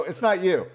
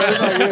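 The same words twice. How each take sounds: First: Said in the usual way. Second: Punched louder through a laugh; louder laughing repeat. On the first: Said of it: "I go, It's not you". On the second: Retold or imitated. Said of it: "I go".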